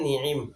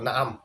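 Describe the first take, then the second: First: Both vowels are i, with a throat sound between. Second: Both vowels are a, with a throat sound between. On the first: "নুন এবং আইন উভয় হরফের মধ্যে জের দিয়ে" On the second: "নুনেও জবর আইনেও জবর"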